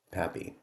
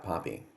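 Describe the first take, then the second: First: "Pappy" said with a flat "a" as in "cat", PAP-ee. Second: "Poppy" said with an open "ah", PAH-pee. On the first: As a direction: say "Pappy" with the short "a" of "apple". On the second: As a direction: say "Poppy" as PAH-pee, first syllable like "pop". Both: Shown as a demonstration. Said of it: "however you say it".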